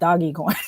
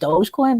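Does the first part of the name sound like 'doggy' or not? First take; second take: doggy; not doggy. First: The first part sounds like 'doggy'. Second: The first part does not sound like 'doggy'. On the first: It refers to the dog the coin came from. "I pronounce it Doggy Coin" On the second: This is how other people say it. "people have called it Dogecoin"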